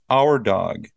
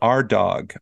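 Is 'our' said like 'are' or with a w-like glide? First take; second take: w glide; are. First: 'Our' is said with a w-like glide. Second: 'Our' is said like the word 'are'. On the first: "I pronounce it with a W sound" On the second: "Some native speakers pronounce it A-R-E, like the A-R-E sound"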